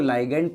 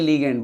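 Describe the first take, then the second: First: The first syllable sounds like 'lie'. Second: The first syllable sounds like 'lee'. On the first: "आप इसको लाइगेंड pronounce कर सकते हो" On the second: "या लीगेंड बोल सकते हो"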